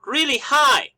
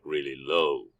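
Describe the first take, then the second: First: Really high pitch, louder. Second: Really low pitch, softer. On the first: Teacher demonstrating high pitch to students, high voice. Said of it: "we go our voice like really high". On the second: Teacher demonstrating low pitch to students, low voice. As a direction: drop the voice way down. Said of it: "we do our voice like really low". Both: Shown as a demonstration.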